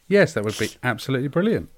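It is said in a sincere tone.

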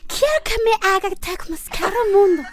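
It is said in a Croatian accent.

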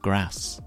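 The A vowel is short. This is how others, such as Americans, say it. "instead of"

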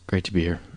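It sounds flat and sad.

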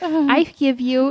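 It is said in a tiny child's voice.

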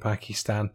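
The word is carefully enunciated in a neutral voice. "it's my podcast voice. I'm enunciating"

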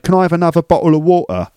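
A broad Cockney accent throughout the sentence. "So a broad Cockney would say"

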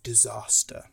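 The word is said in a southern accent. The speaker calls it wrong. "I said that in a really southern disaster"

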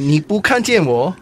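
It follows the melody of "you can't see me".

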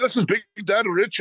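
It is said in a put-on Irish accent.

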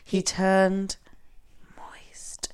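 It is said in a sultry, sexy way. The speaker calls it wrong.

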